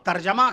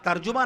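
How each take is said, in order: First: The second vowel is pronounced as 'a'. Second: The second vowel is pronounced as 'u'. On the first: The speaker calls it right. "तर्जमा कहिएगा" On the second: The speaker calls it wrong. "तर्जुमा ना कहिएगा"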